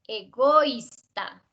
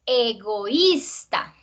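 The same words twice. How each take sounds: First: "egoísta" slowly, e-GÓIS-ta, stress on o; wrongly as diphthong. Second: "egoísta" slowly, e-go-ÍS-ta, rising on í; hiatus. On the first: Teacher contrasting a wrong reading, "egoísta" slow as e-GÓIS-ta. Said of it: "otra cosa sería si fuera". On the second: Teacher showing syllables opening, "egoísta" slow as e-go-ÍS-ta. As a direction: separate o from í in "egoísta", stressing í. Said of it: "se abren las sílabas". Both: Shown as a demonstration.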